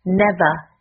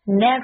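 First: It is said in a British accent, no final r. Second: It is said in an American accent, final r.

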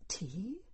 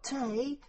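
First: The vowel is a long 'ee' sound. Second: The vowel is an 'ay' sound. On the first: The speaker calls it right. "do you think you could possibly say tea?" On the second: The speaker calls it wrong. "Not tay, mind"

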